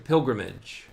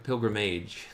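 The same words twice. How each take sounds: First: The last syllable has its usual reduced sound. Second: The last syllable is said to rhyme with age.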